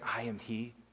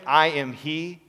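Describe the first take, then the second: First: It is said simply, without force. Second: It is said forcefully, like a proclamation. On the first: "Did he just say" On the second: "Did he proclaim it"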